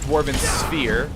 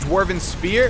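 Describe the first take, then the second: First: The last word is said with an 'f' sound. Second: The last word is said with a 'p' sound. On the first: The speaker calls it right. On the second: The speaker calls it wrong.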